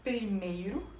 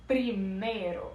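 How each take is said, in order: First: Primeiro with the Portuguese ei glide. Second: Slow primeiro with no i glide, Spanish style; Spanish primero. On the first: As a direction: say primeiro the Brazilian way, with the i. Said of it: "em português". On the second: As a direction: drop the i: pri-me-ro, slowly. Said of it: "Esse i que a gente tem no mei ... não existe em espanhol". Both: Shown as a demonstration.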